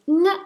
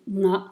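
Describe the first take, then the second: First: Nga pitched high and short; short high-toned syllable nga. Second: Na said low and short; short low-toned syllable na. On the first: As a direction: lift nga to a high, brief tone. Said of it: "it becomes high and short". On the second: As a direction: give na a low, brief tone. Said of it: "instead of being low and short". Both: Shown as a demonstration.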